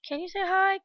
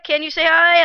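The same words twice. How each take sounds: First: It is said quietly, fading in. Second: It is said loudly.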